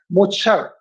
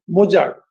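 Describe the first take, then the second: First: It is said with a German-style pronunciation. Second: It is said with an Indian English pronunciation. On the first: The word is said as in its original language. "it should be pronounced as Mozart" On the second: The word is fitted to the borrowing language's sound system. "I am saying it in a typical Indian English way"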